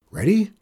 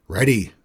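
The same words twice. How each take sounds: First: High, louder rising question; eager boy. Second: Short gruff grunt, louder. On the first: Acted. Boy checking the racers are set, eager. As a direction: pipe it up like a keen kid. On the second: A narrator's reading. Outlaws answering the boy at the line, grunting. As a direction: grunt it back like tough men. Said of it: "the men grunted".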